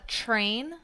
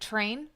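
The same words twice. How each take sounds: First: The word begins with a ch sound. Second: The word begins with a plain t sound. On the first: The speaker calls it wrong. "with a ch sound" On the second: The speaker calls it right. "instead of train"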